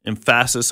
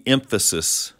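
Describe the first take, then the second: First: "emphasis" said em-FASS-iss, stress moved to the middle; wrong-syllable stress. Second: Said in the usual way. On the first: Shown as a demonstration. Teacher jokes about the wrong emphasis myth, "emphasis" mis-stressed as em-FASS-iss. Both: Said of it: "emphasis on the wrong syllable".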